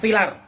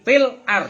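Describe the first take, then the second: First: The words run together without a glottal stop. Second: The words are separated by a glottal stop.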